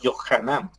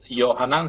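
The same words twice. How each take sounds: First: The first consonant is harsh, with throat friction. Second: The first consonant is soft, without throat friction. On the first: The speaker calls it right. "J pronunciada de forma aspersada, es decir, áspera" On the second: The speaker calls it wrong. "no es Johanan"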